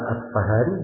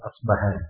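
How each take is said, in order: First: The middle consonant is an f sound. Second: The middle consonant is a b sound. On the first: "Bisa dibaca pakai fa" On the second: "bisa dibaca pakai ba"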